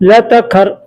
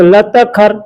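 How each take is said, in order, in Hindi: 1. शब्द मिलाकर एक ही शब्द की तरह बोले जाते हैं। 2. शब्द मिलाकर एक ही शब्द की तरह बोले जाते हैं।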